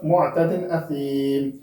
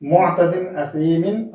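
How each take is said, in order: First: असीम drawn out, closing on a bare "m"; pausal ending. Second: Said in the usual way. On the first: Shown as a demonstration. Teacher shows the stop, slow असीम ending in "m". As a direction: stop on असीम with long "ee", dropping "-in". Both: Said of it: "आगे वक्फ".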